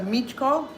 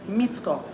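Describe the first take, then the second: First: The middle consonant is a 'ch' sound. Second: The middle consonant is a 'ts' sound. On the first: The speaker calls it wrong. "I'm hearing some Michko. It's not ch" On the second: The speaker calls it right. "it's s. It's like a t, little T S"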